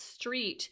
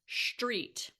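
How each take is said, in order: First: It begins with a plain s sound. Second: It begins with an sh sound.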